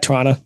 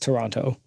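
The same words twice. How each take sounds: First: Toronto is said the way Canadians say it. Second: Toronto is said the way outsiders say it. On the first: The speaker calls it right. "Uh Toronto" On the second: The speaker calls it wrong. "nobody in Canada says Toronto"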